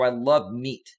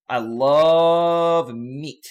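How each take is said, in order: First: Said in the usual way. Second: Stretched out very slowly, louder; slow drawn-out. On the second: Shown as a demonstration. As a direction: drag every word out slowly. Repeats line slow and drawn out.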